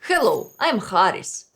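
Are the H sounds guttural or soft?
guttural. The H sounds are hard and guttural.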